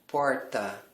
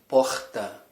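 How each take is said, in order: First: The R is said in the Paulista way. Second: The R is said in a non-Paulista way. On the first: "O R que você vai usar no inglês sempre é do paulista" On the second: "Eles não falam porta"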